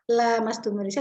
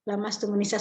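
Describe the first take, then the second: First: The first vowel 'la' is lengthened. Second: The first vowel 'la' is short. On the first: Both parties do it together. "berarti dua-duanya" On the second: Only one party does the touching. "satu arah"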